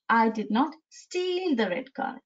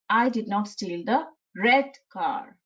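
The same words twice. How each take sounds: First: The stress falls on the word steal. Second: The stress falls on the word red. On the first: "by shifting the stress from the letter I to the word steal" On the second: "So now we are stressing upon the word red"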